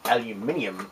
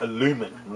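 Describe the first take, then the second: First: It is said as spelt, with five syllables. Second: It is said the American way, with four syllables. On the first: The speaker calls it right. "I say aluminium like it's actually spelt. And properly pronounced" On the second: The speaker calls it wrong. "I don't say aluminum like the Americans do"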